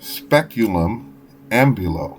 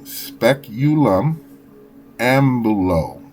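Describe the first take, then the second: First: It is said at normal speed. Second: It is said slowly.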